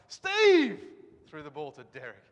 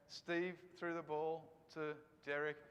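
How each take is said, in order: First: The first word, Steve, is strongly emphasized. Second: The first word gets no special emphasis.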